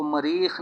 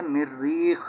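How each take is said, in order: First: मरीख as ma-reekh, a single short r; wrong single r. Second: मिर्रीख as mir-reekh, r held double; doubled r. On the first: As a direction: say मरीख with an a and no doubled r. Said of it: "इसको मरीख नहीं पढ़ेंगे". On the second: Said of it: "तशदीद के साथ है". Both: Shown as a demonstration.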